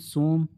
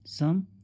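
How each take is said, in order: First: The vowel sounds like 'oh'. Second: The vowel sounds like 'uh'. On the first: The speaker calls it wrong. "इसे हम सोम ऐसे तो नहीं पढ़ते" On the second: The speaker calls it right. "अ से पढ़ते हैं"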